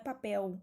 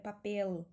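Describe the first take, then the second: First: The final L sounds like a U. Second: The final L is a clear L. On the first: The speaker calls it wrong. "Não é papel" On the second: The speaker calls it right. "é papel"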